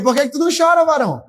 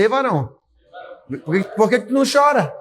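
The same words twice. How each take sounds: First: High, louder mock challenge; raised playful challenge to the man beside you; louder teasing. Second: Playful, quick jab at a man beside you; mildly teasing question, a bit fast; teasing nudge. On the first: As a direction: call him out, half-joking. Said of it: "Diga aí". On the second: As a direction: poke him with a light tease. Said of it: "Cutuca ele e fala assim". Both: Shown as a demonstration.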